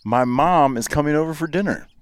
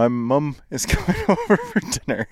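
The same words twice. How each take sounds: First: "mom" with an open ah; American pronunciation. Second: "mum" rhyming with "drum", pitched up; Canadian pronunciation. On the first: American giving the third example, "mom" with ah. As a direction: say "mom" as "mahm", pitched up. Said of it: "third one I have is an O". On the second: American mimicking a Canadian sentence, "mum" with uh. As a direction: say "mum" with a short uh, amused. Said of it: "they're from Canada". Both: Shown as a demonstration.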